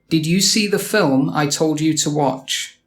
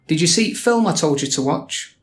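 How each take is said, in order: First: The word 'the' is pronounced in full. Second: The word 'the' becomes a glottal stop. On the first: "How might a proper Yorkshire person say this?" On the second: "Like this"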